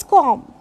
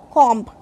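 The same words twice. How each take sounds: First: "comb" with the final B left silent. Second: "comb" wrongly ending in MB; sounded B in comb. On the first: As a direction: say "comb" ending on M, no B. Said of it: "b is silent". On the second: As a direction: say "comb" with a B after the M. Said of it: "not co-, comb". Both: Shown as a demonstration.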